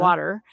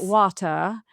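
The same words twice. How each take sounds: First: The final R sound is pronounced. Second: The final R sound is dropped.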